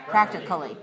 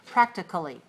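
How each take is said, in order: First: The vowel before the ending is a weak schwa. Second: The same.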